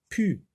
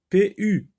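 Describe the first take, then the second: First: The two sounds are blended into one syllable. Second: The two letter names are said separately. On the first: The speaker calls it right. "P avec U, ça se lit pu" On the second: The speaker calls it wrong. "comme on lit l'alphabet, on va dire P U. Non"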